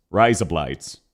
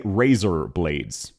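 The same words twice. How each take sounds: First: Low Aussie "Razor blades", like "rise up lights"; Australian accent. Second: Slow, low "razor blades" with clear R and "ay" vowels; careful "razor blades". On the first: Streamer showing how an Australian would say it, low Australian accent. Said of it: "That is how an Australian would say". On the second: Streamer naming the target words, slow careful "razor blades". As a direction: say "razor blades" slowly, unaccented. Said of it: "how an Australian would say". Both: Shown as a demonstration.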